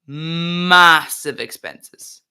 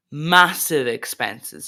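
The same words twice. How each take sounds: First: "massive" hugely stretched and loud; heavy stress on massive. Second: "massive" drawn out slowly; stress on massive. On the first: Streamer repeating himself for effect, "massive" loud and very drawn out. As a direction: hold the first vowel of "massive" very long, loudly. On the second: Streamer guessing at the man's costs, slow stress on massive. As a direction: stretch "massive" at a steady pitch. First take, before emphatic repeat. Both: Real, not acted.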